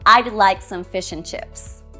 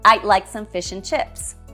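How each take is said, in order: First: Would is contracted to a d sound. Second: Would is contracted to a d sound.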